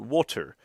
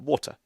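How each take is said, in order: First: The R sound is clearly pronounced in the word. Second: The R sound is dropped from the word. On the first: This is how people outside that area say it. "as opposed to water" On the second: This is how people speak in the speaker's home area. "we sacrifice the R in a lot of words, so I will say uh, water"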